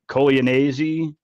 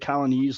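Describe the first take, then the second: First: The surname gets an Italian-style pronunciation. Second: The surname sounds like the English word colonies. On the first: This is how an Italian relative says the name. "She said my last name in a way that I'd never heard before" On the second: This is the easy everyday way to say the name. "I always say colonies, like the thirteen colonies"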